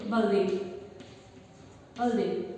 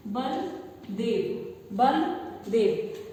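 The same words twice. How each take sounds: First: बलदेव said quick and lower, the middle sound half swallowed; sloppy बलदेव; clipped wrong form. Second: बलदेव drawn out very slowly, every sound clear; slow correct बलदेव; careful full word. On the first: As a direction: rush बलदेव and drop the middle part. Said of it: "उसको क्या बोल देते हो". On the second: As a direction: stretch बलदेव slowly and fully. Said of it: "उदाहरण है". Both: Shown as a demonstration.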